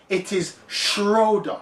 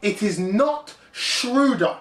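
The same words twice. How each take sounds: First: "Schroeder" said SHROH-duh, with a long OH; slow, deliberate "Schroeder" as SHROH-duh; correct pronunciation. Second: "Schroeder" said SHROO-duh, with an OO vowel; slow, higher, emphatic "Schroeder" as SHROO-duh; mispronunciation shown. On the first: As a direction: insist on the OH in "Schroeder". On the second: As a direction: stretch the OO in "Schroeder", rejecting it. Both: Shown as a demonstration. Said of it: "just pronounce the man's name correctly".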